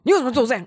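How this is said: It is asked in a stern, harsh tone.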